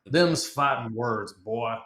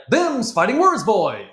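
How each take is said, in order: First: Slow Texan drawl, words drawn out; Texan accent. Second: High, loud, fast Texan with wrong rhythm; German friend's bad Texan. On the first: Shown as a demonstration. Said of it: "Or no, sorry". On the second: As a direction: imitate a learner botching the Texan line. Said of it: "And he'd be like".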